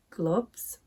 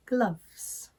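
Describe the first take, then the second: First: "gloves" with the oo of foot; Northern vowel. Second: "gloves" with open uh as in southern cup; RP vowel. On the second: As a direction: say "gloves" the RP way, "gluvz". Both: Shown as a demonstration. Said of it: "The other differences were".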